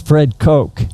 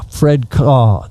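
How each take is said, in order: First: The surname ends in a k sound like coke. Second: The surname ends in an open vowel like caw. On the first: This is the form the family adopted as its name. The speaker calls it right. "he was paged as Fred Coke, and he said, uh, I like that" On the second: This is how locals in West Texas said the name. The speaker calls it wrong. "they pronounced it caw, like a crow"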